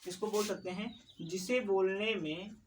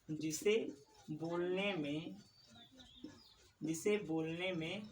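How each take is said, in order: First: Said in the usual way. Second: Slow dictation. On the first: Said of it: "teacher starts definition normally". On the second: Shown as a demonstration. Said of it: "teacher repeats for dictation".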